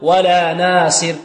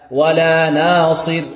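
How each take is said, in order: First: The s sound is light, like a plain s. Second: The s sound is heavy, with the tongue raised. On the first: The speaker calls it wrong. "إذا لم نعطيها صفة الإطباق وهي مكسورة ربما تصير ماذا؟ تصير سينا" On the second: The speaker calls it right. "لابد نعطيها صفة الإطباق"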